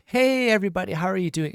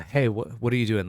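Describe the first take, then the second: First: Much higher, louder, bright hello; cheerful greeting. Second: Sigh, then a flat, lower, tired hey; weary sigh. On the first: Teacher shows English tone with an upbeat greeting to everyone. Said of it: "it's all about tone". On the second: Teacher shows English tone with a tired, fed-up greeting after a sigh. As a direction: sound fed up with them. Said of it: "And I can be like". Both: Shown as a demonstration.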